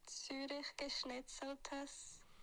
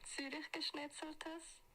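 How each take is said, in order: First: It is said more slowly. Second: It is said at normal speed.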